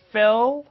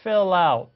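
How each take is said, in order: First: "Fill" cut off on its own, pitched high; unlinked words. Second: "fill out" run together as fil-lout; linked words. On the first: Teacher showing learners what not to do, "Fill" separated. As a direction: say "Fill" alone, not joined to what follows. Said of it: "쫙 끊어서 out 이렇게 하는 게 아니죠". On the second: Teacher showing learners the link, "fill out" joined. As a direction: carry the L of "fill" into "out". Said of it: "요게 요렇게 연결되면서". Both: Shown as a demonstration.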